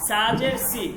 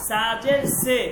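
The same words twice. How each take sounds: First: "সি" with an ee vowel; "সাজের সি" spelt out, ending in ee; Arabic-style zer. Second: "সে" with an ay vowel; "সাজের সে" spelt out, ending in a held e; Persian-style zer. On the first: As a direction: say "সি" as see, the Arabic way. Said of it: "আমি normally আরবিতে". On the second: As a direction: say "সে" as say, not see. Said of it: "তখন আপনাকে উচ্চারণ করতে হবে". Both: Shown as a demonstration.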